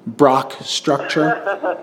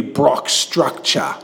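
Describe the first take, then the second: First: Slow, dramatic trailer voice on "Brock Structure"; movie-star name drawl. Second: Said in the usual way. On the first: Shown as a demonstration. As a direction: announce "Brock Structure" like a film title, stretched. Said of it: "his name would be Brock Structure".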